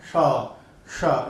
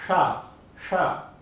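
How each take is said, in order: First: शा with the tongue near the gums, more friction; retroflex शा. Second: शा with the tongue held back inside; palatal शा. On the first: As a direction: say शा with the tongue at the gums, harsher hiss. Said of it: "जीवा को मसूड़े के पास लाया जाता है". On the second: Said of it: "जीवा को थोड़ा अंदर ही रखा जाता है". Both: Shown as a demonstration.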